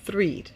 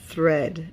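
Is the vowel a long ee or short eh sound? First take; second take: long ee; short eh. First: The vowel is a long ee sound. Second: The vowel is a short eh sound. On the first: The speaker calls it wrong. "not threed" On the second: The speaker calls it right. "Cold and thread"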